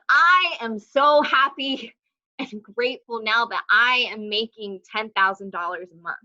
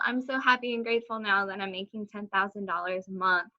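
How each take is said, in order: First: It is said firmly, with full conviction. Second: It is said lightly, without conviction. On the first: The speaker truly believes it already. The speaker calls it right. "and me saying" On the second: The speaker does not truly believe it. The speaker calls it wrong. "There's a difference between me saying"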